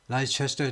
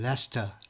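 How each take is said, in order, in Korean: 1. 첫 음절은 lie처럼 들립니다. 네 음절입니다. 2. 첫 음절은 leh처럼 들립니다. 두 음절입니다. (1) "라이도 아니고" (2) "레스터라고 발음합니다"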